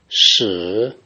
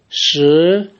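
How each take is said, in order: First: The pitch dips low, then rises. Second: The pitch rises from middle to high.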